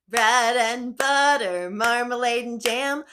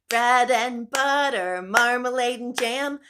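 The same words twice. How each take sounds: No difference in how they are said.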